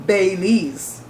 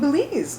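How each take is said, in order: First: The first syllable sounds like 'bay'. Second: The first syllable sounds like 'bih'. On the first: The speaker calls it wrong. "which is like B A Y L E E Z" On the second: The speaker calls it right. "it's pronounced like B I L E E Z"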